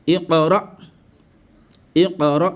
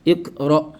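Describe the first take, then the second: First: "Iqra" with an echoed q, i-qa-ra; qalqala. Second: "Iqra" with a stopped k, ik-ro; without qalqala. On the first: Teacher reads from sourate Alaq, qalqala echo. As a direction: bounce the q in "Iqra" before ra. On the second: Teacher shows what one does not say, without qalqala. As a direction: close the k in "Iqra", no bounce. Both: Shown as a demonstration. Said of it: "on ne dit pas".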